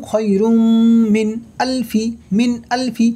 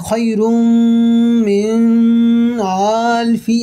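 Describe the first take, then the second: First: মিন আলফি joined quickly, no nasal hold; correct pronunciation. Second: মিন with a long nasal hum before আলফি; wrong nasalization. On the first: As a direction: run মিন into আলফি cleanly. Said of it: "বরং". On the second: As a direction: hold the ন of মিন nasal, pausing. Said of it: "এমন হবে না". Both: Shown as a demonstration.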